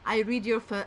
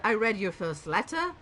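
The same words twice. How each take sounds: First: "read" said like "reed", cut off after "fir-"; misread present tense. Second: "read" said like "red"; corrected past tense. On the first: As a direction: say "read" to rhyme with "need". Misreads, then corrects herself at once. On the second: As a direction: say "read" to rhyme with "bed". Corrected take of the misreading. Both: Real, not acted.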